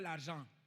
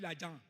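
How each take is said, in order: First: The R sound in the word is pronounced. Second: The R sound in the word is dropped. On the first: "on ne dit pas l'argent" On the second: "il va dire l'argent. C'est l'argent. On ne prononce pas le R là"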